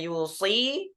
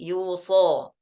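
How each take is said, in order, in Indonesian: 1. Kata ini berakhir dengan vokal ee. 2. Kata ini berakhir dengan vokal ah panjang. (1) "asalnya yusi" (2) "mengganti huruf ya ya dengan a alif"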